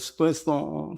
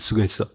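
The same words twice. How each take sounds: First: It is said in a warm, affectionate tone. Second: It is said in a grumpy, frowning tone. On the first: The speaker sincerely appreciates the listener's effort. The speaker calls it right. "마음의 표정을 담아서" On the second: A boss is saying it dismissively to a subordinate. The speaker calls it wrong. "인상을 쓰면서"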